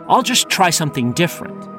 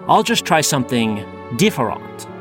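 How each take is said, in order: First: It is said with a plain American accent. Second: It is said with a French-sounding accent.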